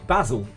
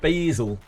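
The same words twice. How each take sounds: First: It is said with a British pronunciation. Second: It is said with an American pronunciation. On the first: "we say basil" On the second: "instead of basil"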